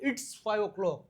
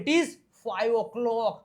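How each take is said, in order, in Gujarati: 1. તે એક ટૂંકા શબ્દમાં જોડાઈ જાય છે. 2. તે બે અલગ શબ્દ તરીકે બોલાય છે.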